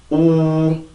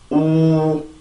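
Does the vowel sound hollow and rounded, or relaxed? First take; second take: hollow; hollow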